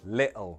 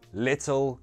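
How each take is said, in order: First: The t is replaced by a glottal stop. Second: The t is pronounced as a clear t.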